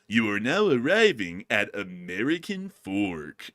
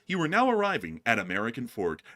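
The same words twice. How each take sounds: First: It is said in a condescending tone. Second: It is said in a plain, neutral tone. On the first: "he sounds so condescending" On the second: "the English one's like"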